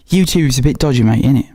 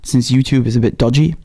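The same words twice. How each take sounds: First: A light mock British accent, slangy and chummy; 用轻微的模仿英国口音说这句话. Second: Said in the usual way. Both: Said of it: "support these lovely, wonderful accents".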